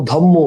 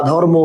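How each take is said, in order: First: ধম্ম with doubled m, no r; assimilated pronunciation. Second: Said in the usual way. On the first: Shown as a demonstration. Teacher listing examples for students, assimilated pronunciation. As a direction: turn the r into m in ধম্ম. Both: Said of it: "সব হচ্ছে পরাগত সমীভবনের উদাহরণ".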